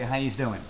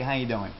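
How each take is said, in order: First: The middle word sounds like 'youse'. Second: The middle word sounds like 'you'. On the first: Several people are being greeted. "If it's multiple people, you might say" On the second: One person is being greeted. "If it's just one guy, you say"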